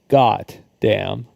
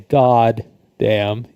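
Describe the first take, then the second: First: The first word ends with a t sound. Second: The first word ends with a d sound. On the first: The speaker calls it right. "you say got damn" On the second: The speaker calls it wrong. "you don't say god damn"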